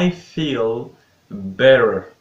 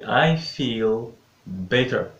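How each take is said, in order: First: It is said in an American accent. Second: It is said in a British accent. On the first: "Just British and American accent" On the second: "Just British and American accent"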